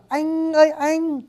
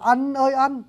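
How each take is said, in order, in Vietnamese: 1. Được nói với giọng miền Bắc. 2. Được nói với giọng miền Nam. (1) "Tiếng Bắc đọc là anh ơi anh" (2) "không đọc là anh ơi anh"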